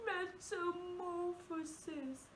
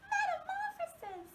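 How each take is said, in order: First: Softer crying, half-sung word; a mock sob on the word; really sad. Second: A dainty little princess squeak. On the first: Teacher repeating the word sadly. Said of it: "like we're really sad". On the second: Teacher repeating the word like a princess. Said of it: "Let's say it like a princess". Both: Shown as a demonstration.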